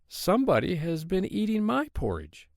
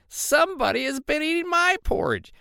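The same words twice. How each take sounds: First: The voice is medium in size and pitch. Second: The voice is small, high and shrill. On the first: The middle-sized bear is speaking. "in her middle-sized voice" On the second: The smallest bear is speaking. "in his little shrill voice"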